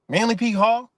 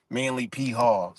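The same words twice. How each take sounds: First: Higher, louder, rising echo of the name; incredulous question. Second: Said in the usual way. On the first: Real, not acted. Vlogger questioning the Manly P Hall connection, incredulous. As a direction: throw it back as a disbelieving question.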